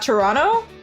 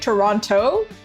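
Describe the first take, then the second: First: Toronto is said the way a local would. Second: Toronto is said the way an outsider would. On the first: The speaker sounds like a local. The speaker calls it right. "not Toronto" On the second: The speaker sounds like a foreigner. The speaker calls it wrong. "I keep saying Toronto ... Speaking like I'm a foreigner"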